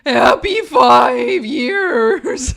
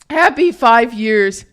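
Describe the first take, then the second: First: It is said in a put-on performing voice. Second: It is said in the speaker's normal voice.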